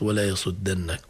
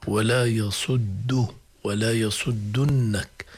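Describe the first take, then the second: First: "يصدنك" as yasuddannak, with a after dd; wrong vowel on dal. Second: Slow "يصدنك" as yasuddunnak, with u after dd; damma on the dal. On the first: Teacher shows what it is not, "يصدنك" with a. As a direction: say "يصدنك" with fatha before the nn. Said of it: "وليست". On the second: Teacher warns of a missed vowel, slow "يصدنك" with u. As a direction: recite "يصدنك" deliberately, u before the long nn. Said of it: "عليها ضمة على الدال". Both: Shown as a demonstration.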